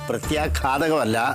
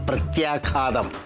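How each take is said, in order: First: The word ends with an extra 'kam' syllable. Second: The word ends without an extra syllable. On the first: The speaker calls it wrong. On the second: The speaker calls it right.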